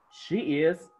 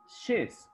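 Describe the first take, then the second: First: Said in the usual way. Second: "she's" as one falling syllable; forma abreviada. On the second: Shown as a demonstration. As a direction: merge she and is into "she's". ("she's" contraído en una sílaba)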